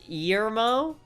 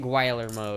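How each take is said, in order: First: The name starts with a soft G sound. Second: The name starts with a hard G sound. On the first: "It's a soft G, so it's" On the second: "I'm just gonna say it Guillermo because that's funnier"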